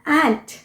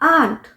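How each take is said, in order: First: The vowel is a short 'a' as in cat. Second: The vowel is a long open 'ah' sound. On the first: "American pronunciation एंट" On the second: "British pronunciation हुआ आंट"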